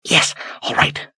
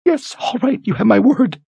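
First: Whispered, breathless gasp. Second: Very high, terrified voice; choked with terror. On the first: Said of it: "she gasped". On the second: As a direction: force the words out in terror. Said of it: "choked with terror". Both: Acted.

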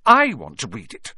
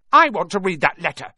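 First: Loud, angry insistence on I; furious. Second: Put-on high, loud bratty boy; loud demand. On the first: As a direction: fire back furiously at a rival. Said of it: "said Harry furiously". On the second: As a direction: demand it at full voice. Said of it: "he said loudly". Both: A narrator's reading.

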